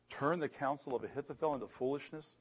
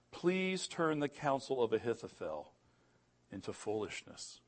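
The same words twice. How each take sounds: First: "foolishness" lifted in disbelief; incredulous question. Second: Said in the usual way. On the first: Retold or imitated. Preacher marvels at the odds of that happening, incredulous question. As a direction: echo it as a question, rising at "foolishness". Echoes prayer as doubting question.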